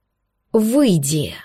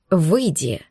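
First: Slow, heavy barked command; barked roar. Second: Low growled order. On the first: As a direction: bark it to shake the glass. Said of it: "рявкнул кореглазый демон". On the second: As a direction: growl it at him. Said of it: "рыкнул Шантар на друга". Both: Acted.

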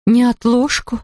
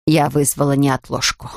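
First: Alarmed question. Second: Said in the usual way. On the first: A narrator's reading. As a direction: echo the word in alarm. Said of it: "бледнее воскликнула". (испуганный переспрос) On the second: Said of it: "plain announcement".

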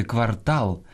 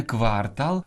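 First: Квартал stressed on ТАЛ; end-stressed квартал; stress on last syllable. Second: Квартал stressed on КВАР; wrong first-syllable stress. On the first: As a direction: say квар-ТАЛ. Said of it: "а правильно сказати квартал". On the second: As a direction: say КВАР-тал. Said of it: "а правильно сказати". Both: Shown as a demonstration.

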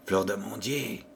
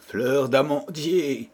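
First: Fleur d'amandier murmured much softer and lower. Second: Said in the usual way. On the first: A narrator's reading. Pierrot sadly repeating his beloved's name, murmured. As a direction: murmur fleur d'amandier to yourself under your breath. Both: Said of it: "murmura Pierrot à voix basse".

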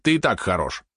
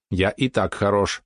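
First: Said in the usual way. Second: Slow, evenly spaced robot speech; robot spider. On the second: Acted. Mechanical spider agrees it is fine as is, slow measured robot voice. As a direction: draw each word out like a machine.

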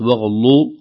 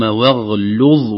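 First: "واغلو" with ل thickened by its neighbours; mistaken lam. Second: Slow "واغلظ" closing on a full ظ; light ل, then a clear heavy ظ in "واغلظ"; correct heavy za. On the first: Teacher shows what it is not, heavy ل. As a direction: wrongly darken the ل in "واغلو". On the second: Teacher models the right form, light ل between heavy letters. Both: Shown as a demonstration. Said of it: "وليست".

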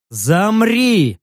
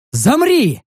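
First: Firm order, less high, held longer; repeated command. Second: Sharp, high-pitched order; barked command. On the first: Commander restrains the protesting orc, firm command. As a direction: order it firmly and evenly. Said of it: "повторил я". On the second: Narrator halts the orc, barked order. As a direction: snap it out like a commander. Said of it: "рявкнул я". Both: A narrator's reading.

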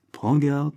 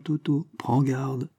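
First: Prends garde, net et pressant; avertissement. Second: Prends garde, lent et plus doux; répète la mise en garde, lentement et bas; avertissement lent. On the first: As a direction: mise en garde ferme à un ami. (Michel avertit Toto, ton pressant) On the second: (Michel insiste auprès de Toto, lent et grave) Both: A narrator's reading. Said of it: "dit-il d'un ton solennel".

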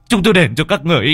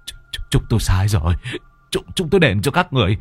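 First: Much higher and louder, fast, panicked plea; begging at the top of the voice; desperate begging. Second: Fast, stuttering, terrified begging; a strangled man pleading for his life; stammering plea. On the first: Husband begs the ghosts, rising to panic. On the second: Husband begs the ghosts choking him, frantic. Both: Acted. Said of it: "thì họ mới van xin".

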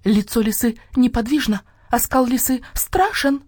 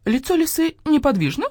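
First: High chanted statement, slowing at the end; hen crying out. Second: «Лицо лисы неподвижно» as a high question; questioning hen voice. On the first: Lone hen breaks from the chorus, crying out her chant. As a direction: declaim «Лицо лисы неподвижно» high, as a falling statement. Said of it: "уставился на орущую курицу". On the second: Starling echoes the hen, «Лицо лисы неподвижно» as a high question. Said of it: "куриным голосом, но с вопросительной интонацией". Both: A narrator's reading.

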